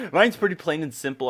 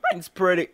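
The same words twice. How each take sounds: First: Said in the usual way. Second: Voice crack. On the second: Real, not acted. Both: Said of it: "voice crack".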